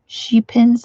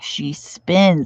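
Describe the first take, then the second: First: It is said as one word, sheep-ins. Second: It is said as two words, she spins. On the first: The speaker calls it wrong. "am I saying it right?" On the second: The speaker calls it right.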